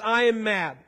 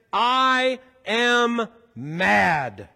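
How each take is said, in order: First: Said in the usual way. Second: "I am mad" very slow, each word held and separate; each word stressed. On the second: Shown as a demonstration. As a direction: land "I", "am", "mad" one at a time. Spells out the true meaning.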